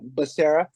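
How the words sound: The name is said with an American pronunciation. This is the anglicized form of the name. The speaker calls it wrong. "that's like the American"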